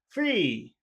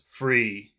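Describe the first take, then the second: First: It sounds happy, with a high pitch. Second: It sounds serious, with a lower pitch. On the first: The speaker calls it right. "but happy" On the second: The speaker calls it wrong. "So not not serious"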